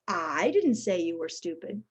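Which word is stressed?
I. The stress falls on the word I. Someone else said it. "suggests somebody else did"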